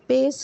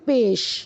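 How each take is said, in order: First: The word ends with an s sound. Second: The word ends with an sh sound. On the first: The speaker calls it wrong. "पेस नहीं बोलेंगे" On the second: The speaker calls it right. "शीन की sound"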